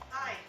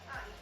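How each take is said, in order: First: It is said loudly. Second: It is said quietly.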